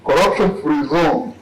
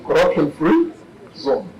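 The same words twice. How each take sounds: First: It is said the American way. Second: It is said the English way. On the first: "the Americans would mean" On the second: "The English would say"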